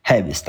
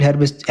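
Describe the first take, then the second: First: هابست with a long a and no r; without the r. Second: هيربست with a clear r sound. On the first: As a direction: say هابست, dropping the r entirely. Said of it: "هابست، مش ننطق الار". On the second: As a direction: say هيربست pronouncing the r after e. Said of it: "ممكن تقولها هيربست". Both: Shown as a demonstration.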